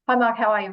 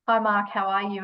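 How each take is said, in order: First: It is said fast and hurried. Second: It is said slowly and warmly.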